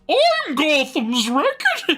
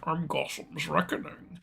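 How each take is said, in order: First: The voice is clear and easy to understand. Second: The voice is muffled and hard to understand.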